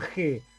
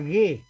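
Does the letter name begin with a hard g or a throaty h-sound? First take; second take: throaty h; hard g. First: It begins with a throaty h-like sound. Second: It begins with a hard g sound. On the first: The speaker calls it wrong. "la G no se llama G" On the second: The speaker calls it right. "se llama G. ¿Por qué? Porque se pronuncia siempre así"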